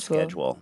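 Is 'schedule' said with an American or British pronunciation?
American. It is said with an American pronunciation. "rather than schedule"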